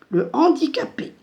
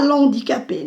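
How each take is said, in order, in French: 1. La voyelle de l'article est gardée, prononcée séparément. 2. La voyelle de l'article tombe et se lie au mot.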